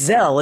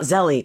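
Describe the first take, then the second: First: The name is said as one syllable. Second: The name is said with two syllables. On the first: The speaker calls it right. "it's just one Zell, and it's Zell" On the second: The speaker calls it wrong. "It's not Zelly"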